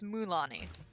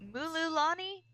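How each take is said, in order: First: The name is said without the extra syllable. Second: The name is said with an extra syllable. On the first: The speaker calls it right. "It's Mulani" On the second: The speaker calls it wrong. "I used to say Mulula- Mululani. That's not how you say it at all"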